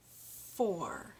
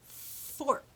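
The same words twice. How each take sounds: First: FOUR drawn out, ending on the R; open ending. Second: FORK with long F and separate released K; clear final K. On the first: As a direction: say four with nothing added after it. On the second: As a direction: pop the k at the end of fork. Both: Shown as a demonstration. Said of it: "Did you hear the sound on the end?".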